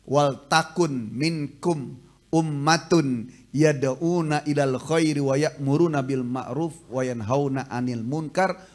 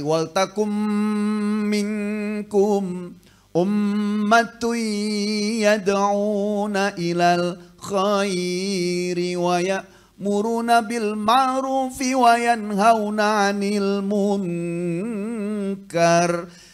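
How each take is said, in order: First: It is read like a poem without tajwid rules. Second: It is recited with full Quranic tajwid rules. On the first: The speaker calls it wrong. "itu baru bacanya seperti syair" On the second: The speaker calls it right. "Kalau kita baca, ya seperti ayat tadi"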